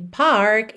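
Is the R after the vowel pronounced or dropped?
pronounced. The R after the vowel is pronounced.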